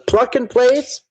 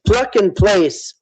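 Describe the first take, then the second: First: Doubtful question. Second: Slow spelled-out term. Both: Shown as a demonstration. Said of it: "Something like pluck and place".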